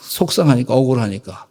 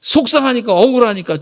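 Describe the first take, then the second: First: Said in the usual way. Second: Heated. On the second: Shown as a demonstration. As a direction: say it with rising hurt.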